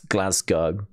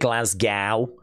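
First: Glasgow is pronounced the way people in Britain say it. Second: Glasgow is pronounced the way people abroad say it. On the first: The speaker calls it right. "but it's Glasgow" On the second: The speaker calls it wrong. "Some people call it Glasgow. Not in the UK. But abroad, people pronounce it that way"

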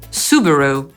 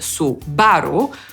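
First: The stress is on the first syllable. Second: The stress is on the second syllable. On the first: This is how the name is said in English. "a po angielsku pierwszą" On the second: This is how the name is said in Polish. "Po polsku akcentujemy drugą sylabę"

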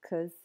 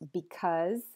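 First: The word is shortened with a reduced vowel. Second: The word is said in full with a clear vowel.

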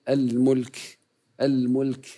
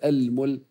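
First: The final k is released with audible breath. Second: The final k is held silent without release. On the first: The speaker calls it right. "إن وقفت عليها فإذا لم تقم بهمسها ستكون صماء" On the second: The speaker calls it wrong. "لا نقول المل ونسكتين"

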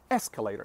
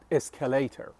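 First: The stress is on the first syllable. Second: The stress is on a later syllable. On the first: The speaker calls it right. "The stress is on the first syllable" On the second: The speaker calls it wrong. "not escalator"

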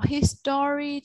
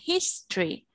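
First: The word is said with three full syllables. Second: The word is said with only two syllables. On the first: The speaker calls it wrong. "Nếu như mà con đọc history thì con sẽ không nghe được" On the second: The speaker calls it right. "mình chỉ đọc hai âm tiết thôi"

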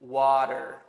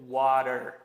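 First: It is said in an American accent. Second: The same.

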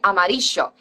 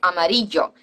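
First: The ll sounds like English sh. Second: The ll sounds like English y. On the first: This is how it is said in Argentina. "a person from Argentina, for example, saying amarillo" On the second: This is the form students first learn. "they learn a word like amarillo"

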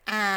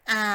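No difference in how they are said.

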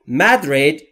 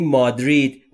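First: The word is pronounced the English way. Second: The word is pronounced the Persian way. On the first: "در انگلیسی تلفظش به این صورته" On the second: "ما در این فارسی بهش میگیم مادرید"

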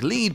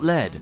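First: The vowel is long, rhyming with bead. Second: The vowel is short, rhyming with bed. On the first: "bead is pronounced like lead" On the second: "but not lead"

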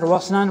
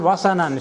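First: The s sound has no vowel after it. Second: The s sound is followed by a short a. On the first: The speaker calls it wrong. "It's not wasanan" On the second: The speaker calls it right. "Sin has got a fatha"

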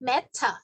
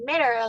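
First: The t is clear and there is no r. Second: The t sounds like d with an r. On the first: "ถ้าเป็น British English อย่างที่อาจารย์บอกเนาะก็จะเป็น" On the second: "ในขณะที่อเมริกันนะคะก็จะออกเสียงเป็น"

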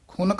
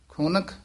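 First: The word is said plainly, running on. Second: The word is said with a pressed, held sound. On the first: The speaker calls it wrong. "ਖੁਨਕ ਨਾਮ ਨਹੀਂ ਕਹਿ ਦੇਣਾ" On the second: The speaker calls it right. "ਖੁਨਕ ਇੱਥੇ ਯਮਕ ਲਾ ਦੇਣੀ ਹੈ"

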